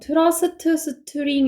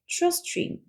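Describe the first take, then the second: First: Extra vowels split each consonant cluster apart. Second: Consonant clusters are linked without added vowels. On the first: The speaker calls it wrong. "이렇게 읽어버리면은 하나도 못 알아들어요" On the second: The speaker calls it right. "이렇게 읽어주셔야 되고"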